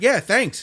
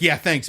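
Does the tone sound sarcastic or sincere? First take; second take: sincere; sarcastic. First: The tone sounds sincere and warm. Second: The tone sounds sarcastic and dismissive. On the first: The thanks is genuine. "but I meant" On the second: The thanks seems insincere. "it sounded like"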